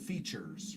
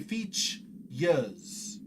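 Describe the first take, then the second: First: The R sound is pronounced. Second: The R sound is dropped. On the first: "instead of features" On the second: "they would say features"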